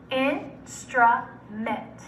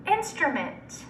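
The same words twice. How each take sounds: First: Instrument in three slow, separate syllables. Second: Said in the usual way. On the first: Shown as a demonstration. Teacher breaking Instrument up for students, syllable by syllable. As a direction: pause between in, stru and ment in Instrument. Syllable blending drill, word broken up.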